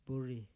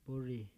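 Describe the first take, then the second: Both takes have the same delivery.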